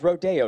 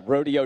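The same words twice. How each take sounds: First: RODEO as roh-DAY-oh; local Rodeo. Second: RODEO as ROH-dee-oh; everyday English Rodeo. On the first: Angeleno explaining local names, RODEO as roh-DAY-oh. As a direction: RODEO stressed on the middle DAY. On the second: Angeleno explaining local names, RODEO as ROH-dee-oh. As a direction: RODEO like the cowboy event. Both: Shown as a demonstration. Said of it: "Rodeo Drive is Rodeo Drive".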